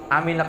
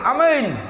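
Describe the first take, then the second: First: It is said weakly and limply. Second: It is said loudly and forcefully.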